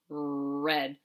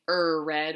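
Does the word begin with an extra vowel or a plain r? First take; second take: plain r; extra vowel. First: The word starts directly with the r sound. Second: An extra vowel comes before the r sound. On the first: The speaker calls it right. "it's rich, red" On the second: The speaker calls it wrong. "we don't say er red"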